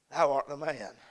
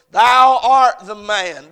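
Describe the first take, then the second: First: Soft, hushed "Thou art the man"; quiet verdict. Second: Loud, slow, higher "Thou art the man"; prophet's verdict. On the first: God quietly names the preacher's sin, hushed. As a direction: lay the verdict down gently, almost under breath. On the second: Nathan confronts David with his sin, slow and loud. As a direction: proclaim it like Nathan pointing at the king. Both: Retold or imitated. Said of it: "in the words of Nathan the prophet".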